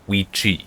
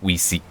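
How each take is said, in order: First: The middle consonant is a hard K sound. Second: The middle consonant is a soft S sound. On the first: The speaker calls it right. "they don't have any soft consonants" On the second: The speaker calls it wrong. "not like we see"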